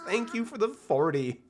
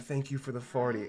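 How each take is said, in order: First: It is said in the speaker's normal voice. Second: It is said in a silly put-on voice.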